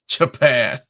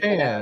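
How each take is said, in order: First: It is said in a put-on sick voice. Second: It is said in a normal voice.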